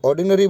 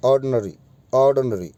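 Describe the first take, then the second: First: ऑर्डिनरी with a clear "di" in the middle; common pronunciation. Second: ऑर्डिनरी with the middle i dropped, "aad-nuh-ree"; proper pronunciation. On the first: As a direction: say ऑर्डिनरी in four beats, or-di-na-ree. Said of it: "अब इसको ऑर्डिनरी बोलते हैं". (आम उच्चारण, ऑर्डिनरी में "डि" साफ़) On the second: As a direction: say ऑर्डिनरी as three beats, silent middle i. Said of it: "वैसे होता है ऑर्डिनरी". (सही उच्चारण, ऑर्डिनरी में बीच की "इ" silent) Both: Shown as a demonstration.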